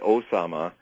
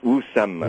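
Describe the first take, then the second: First: The name is said in an Americanized way. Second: The name is said in its original way. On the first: The speaker calls it wrong. "that's like saying American" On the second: The speaker calls it right. "It's Usama"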